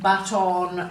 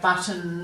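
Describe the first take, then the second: First: The last syllable has a full, clear vowel. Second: The last syllable has a reduced schwa vowel. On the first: "Rather than saying" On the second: "we're giving that schwat sound again"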